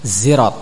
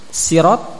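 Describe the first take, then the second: First: It starts with a buzzing z sound. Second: It starts with a plain, light s sound. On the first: "boleh dengan zai" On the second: "boleh dengan sin"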